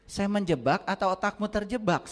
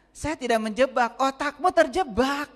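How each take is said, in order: First: Otakmu lifted a little, the question landing on terjebak; tossing the question back with a light lift on otakmu; retorting quote. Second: Otakmu hit high and loud, terjebak drawn out slowly; emphatic retort. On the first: Preacher retelling his retort, mildly stressed. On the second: Preacher repeating his retort, high, loud and slow. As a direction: hammer otakmu, then drag out terjebak. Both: Retold or imitated. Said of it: "Saya bilang gitu".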